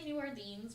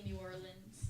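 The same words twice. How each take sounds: First: Said in the usual way. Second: New Orleans said with a New Orleans accent. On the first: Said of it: "I say New Orleans". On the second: Shown as a demonstration. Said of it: "whenever I'm trying to do a New Orleans accent".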